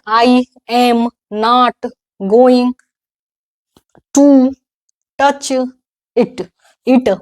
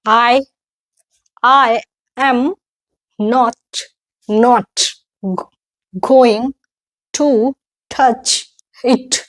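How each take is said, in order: First: "I am not going to touch it" slowly, word by word, every word fully sounded; "touch it" broken off word by word, a small vowel after each final t; everyday learner reading. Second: "I am not going to touch it" word by word with English vowels and puffed consonants; "I" as one glide, "touch it" with crisp final consonants; careful model pronunciation. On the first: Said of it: "ऐसे क्या normal लोग कैसे". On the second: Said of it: "अब मैं कैसे पढ़ रही हूँ". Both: Shown as a demonstration.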